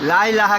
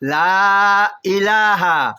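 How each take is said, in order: First: The vowels are said short, without stretching. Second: The vowels are stretched long, three counts each. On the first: The speaker calls it wrong. "কেউই বলবেন না" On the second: The speaker calls it right. "তিন আলিফ টান আছে এখানে"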